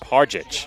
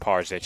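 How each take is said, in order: First: The middle consonant sounds like a 'j'. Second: The middle consonant sounds like a 'z'. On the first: The speaker calls it right. "It is, in fact, pronounced Parjic" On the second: The speaker calls it wrong. "it is not pronounced Parzic"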